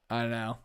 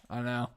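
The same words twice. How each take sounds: The two takes are said the same way.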